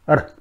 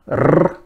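First: The r is a single quick flap. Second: The r is a sharp, rolled trill. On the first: "or it may be just a flap" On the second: "this may be a sharp trill"

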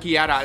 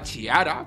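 First: The name begins with a 'k' sound. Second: The name begins with a 'ch' sound. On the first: The speaker calls it right. "se pronuncia Chiara. La C H en italiano se pronuncia Ki" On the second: The speaker calls it wrong. "que yo la llamaba Chiara, porque así es como se escribe"

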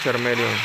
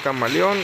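First: It is said like the Pokémon name Charmeleon. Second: It is said like the Spanish word camaleón. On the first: This is a personal, playful way of saying it. "pero yo le digo Charmeleon, como si fuera un Pokémon" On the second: This is the proper way to pronounce it. "se pronuncia Camaleón"

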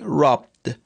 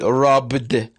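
First: The b is held without an audible release. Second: The b is released with an audible burst. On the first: The speaker calls it right. "So b should be unexploded" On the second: The speaker calls it wrong. "I won't say robbed"

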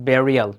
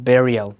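Both takes have the same delivery.

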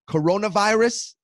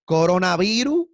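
First: The word has an English pronunciation. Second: The word has a Spanish pronunciation. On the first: It sounds like something deadly. "that sounds like a terrifying thing" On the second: It sounds like a harmless fruit. "It sounds like a fruit that I have at a smoothie place"

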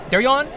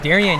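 First: The name is said in a Filipino accent. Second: The name is said in a plain accent.

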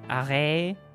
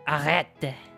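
First: The final T sound is left silent. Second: The final T sound is pronounced.

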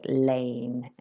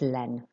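First: The vowel is an English-like 'ay' glide. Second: The vowel is a pure open 'eh' sound. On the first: The speaker calls it wrong. "And I said lane. Like it was an English word" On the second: The speaker calls it right. "the AI here makes an E sound"

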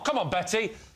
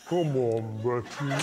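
First: It is said at normal speed. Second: It is said very slowly, in slow motion.

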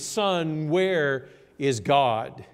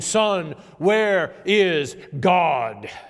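First: It is said sternly at a lower volume. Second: It is said more sternly and louder.

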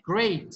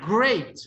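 First: The word is said with medium strength. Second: The word is said loudly with strong resonance. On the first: "Un nivel 3" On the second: "Nivel 4"

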